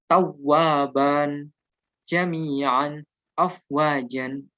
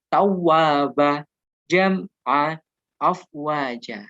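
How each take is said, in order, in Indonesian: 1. Setiap kata berakhir dengan bunyi -an. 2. Setiap kata berakhir dengan huruf a panjang. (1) "Kalau dibaca aslinya" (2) "di akhir kalimat tanwin tidak dibunyikan"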